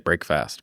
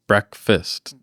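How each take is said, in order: First: It is said as two words, break fast. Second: It is said the usual way, as brekfast. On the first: The speaker calls it wrong. "you don't say break fast, but that's how you spell it" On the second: The speaker calls it right. "it's breakfast"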